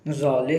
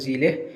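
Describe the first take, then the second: First: The first vowel is a long 'a' sound. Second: The first vowel is a short 'e' sound. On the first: Some people say it this way. "ये इसे ज़ाले भी बोल देते हैं कुछ लोग" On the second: This is the correct form. "Correct लिखा हुआ है ज़िले"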